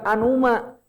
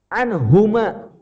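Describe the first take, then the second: First: The h sound before uma is dropped. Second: The h sound before uma is clearly pronounced. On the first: The speaker calls it wrong. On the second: The speaker calls it right.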